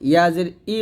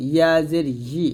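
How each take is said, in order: First: ই as a bare vowel "i", no y; hamza-like ই. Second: ই as "yi" with a clear y; y-glided ই. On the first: Teacher shows learners the mistake, ই as bare "i". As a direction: drop the y glide, start ই like hamza. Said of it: "বলবেন না". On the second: Teacher corrects the mistake, ই said as "yi". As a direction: press mid-tongue to palate for "yi" on ই. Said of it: "ইয়াটা হামজার মতো না হয়ে যায়". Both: Shown as a demonstration.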